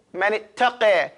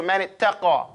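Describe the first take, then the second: First: "ittaqa" ending in a fronted "qeh"; changed vowel. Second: "ittaqa" ending in an open "qah"; unchanged vowel. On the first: Teacher shows the imla rule, "ittaqa" said as "ittaqeh". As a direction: end "ittaqa" on eh, not ah. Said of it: "you change the pronunciation". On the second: Teacher gives the contrast, "ittaqa" with open ah. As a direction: end "ittaqa" on a broad ah. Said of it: "as opposed to". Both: Shown as a demonstration.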